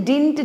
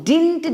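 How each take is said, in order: The two takes are said the same way.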